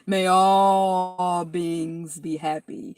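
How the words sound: It is said imitating the teacher's voice.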